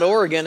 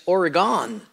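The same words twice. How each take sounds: First: Said in the usual way. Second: "Oregon" said as Ore-GONE; "Oregon" ending in a full, stressed "gone"; punning pronunciation. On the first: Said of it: "it's not Oregon". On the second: Shown as a demonstration. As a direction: stretch the end of "Oregon" into the word gone. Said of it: "It's just, whew, gone".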